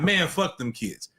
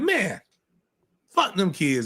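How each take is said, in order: First: The words run together with no pause. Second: There is a pause after the first word. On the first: It is an order telling people to do it. The speaker calls it wrong. "is a command" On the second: It is a tongue-in-cheek dismissal. The speaker calls it right. "it's man, comma"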